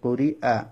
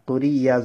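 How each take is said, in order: First: A glottal catch comes before the last vowel. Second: A y sound comes before the last vowel. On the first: The speaker calls it right. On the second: The speaker calls it wrong.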